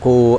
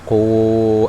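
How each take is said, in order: First: The vowel is held for only two counts. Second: The vowel is held for four counts. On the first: "Dua aja berarti. Enggak panjang"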